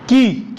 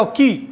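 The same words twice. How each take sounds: First: की with the ई stretched long; की sung out with a long ee; long drawn-out ki. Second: की with a quick light ई; don't stretch की, just touch it; light short ki. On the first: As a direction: hold the vowel in की. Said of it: "खींचना पड़ेगा". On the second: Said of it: "खींचना नहीं है, बस हल्का". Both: Shown as a demonstration.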